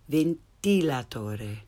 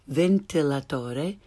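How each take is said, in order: First: The i vowel is tense, like English 'ee'. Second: The i vowel is lax, like English 'ih'. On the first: The speaker calls it right. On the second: The speaker calls it wrong.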